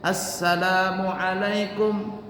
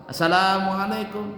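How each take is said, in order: First: Assalamualaikum slowly with a held s; slow salam. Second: Assalamualaikum rushed with a single s; no doubling. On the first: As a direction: draw out the salam. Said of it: "Beda dengan". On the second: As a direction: say it quick, no held s. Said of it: "Nggak pakai tasydid". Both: Shown as a demonstration.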